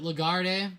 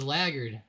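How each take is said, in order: First: The stress is on the second syllable. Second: The stress is on the first syllable. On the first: The speaker calls it right. "Is it Lagarde?" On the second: The speaker calls it wrong. "I thought it was Laggard"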